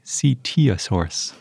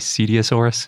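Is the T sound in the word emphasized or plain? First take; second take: emphasized; plain. First: The T sound is strongly emphasized. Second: The T sound is said plainly, without emphasis. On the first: This is how the other person says it. "I like how you really emphasize the T in it" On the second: This is how the speaker would usually say it. "I would just say Cetiosaurus"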